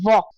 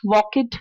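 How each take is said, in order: First: The ending is a short 't' sound. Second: The ending is an extra 'id' syllable. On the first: The speaker calls it right. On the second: The speaker calls it wrong.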